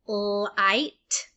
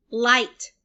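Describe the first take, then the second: First: "Light" with a long L before IGHT; sounded out. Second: Said in the usual way. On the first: Shown as a demonstration. Teacher sounding out for learners, "Light" stretched into its sounds. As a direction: hold the L, then finish "Light". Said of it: "saying all the sounds individually". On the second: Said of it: "break it into syllables like this".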